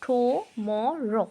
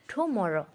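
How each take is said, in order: First: tomorrow drawn out slowly as three separate syllables; split into syllables. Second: Said in the usual way. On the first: Shown as a demonstration. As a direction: say tomorrow very slowly, টু, ম, রো, each part held apart. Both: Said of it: "সিলাবেল মানে হচ্ছে ভাগ করে পড়া".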